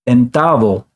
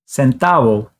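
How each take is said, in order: First: The first consonant is a TH sound. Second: The first consonant is an S sound. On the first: "it's going to sound like the T H in think" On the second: "it makes an S sound"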